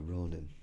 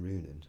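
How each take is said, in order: First: Ronin said with a long o, ROH-nin; correct pronunciation. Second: Runin said with an oo vowel, ROO-nin; wrong pronunciation. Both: Shown as a demonstration. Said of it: "Yeah, Ronin".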